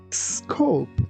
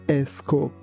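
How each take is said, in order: First: The word starts directly with the S. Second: An extra vowel is added before the S. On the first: The speaker calls it right. "We say scope" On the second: The speaker calls it wrong. "we shouldn't say a scope"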